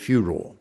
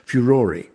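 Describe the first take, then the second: First: The word ends without a final vowel sound. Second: The word ends with an extra final vowel sound. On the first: This is the usual American pronunciation. "the Americans leave the final E off, and so they normally pronounce it furor" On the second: This is the pronunciation British dictionaries prefer. "we keep the E on the end, and the dictionaries prefer the pronunciation furore"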